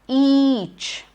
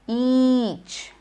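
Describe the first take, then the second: The two takes are said the same way.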